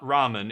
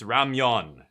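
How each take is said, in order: First: The second syllable is a plain 'men' sound. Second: The second syllable is a gliding 'myeon' sound. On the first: It is the Japanese name for the dish. "It's not ramen" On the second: It is the Korean name for the dish. "in Korea, it's ramyeon"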